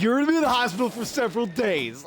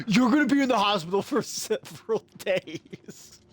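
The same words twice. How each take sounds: First: Quick, emphatic quote of a worked-up brother; emphatic imitation. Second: Laughing imitation. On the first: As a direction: redo the brother's warning briskly, without laughing. Repeats the brother's quote after laughing. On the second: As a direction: quote the brother while cracking up. Cracks up quoting his brother.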